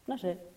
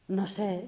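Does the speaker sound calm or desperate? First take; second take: calm; desperate. First: It is said in a calm, relaxed way. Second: It is said with desperate, tense feeling. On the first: Peaceful acceptance of not knowing. "Y es completamente distinto" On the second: Anxious need to know and figure things out. "no sé con desesperación, con tensión"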